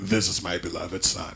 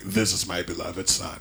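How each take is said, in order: First: It is said in a deep bass voice. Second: It is said in a deep bass voice.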